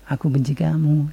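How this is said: It sounds playful and affectionate.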